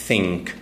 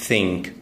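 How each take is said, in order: The two takes are said the same way.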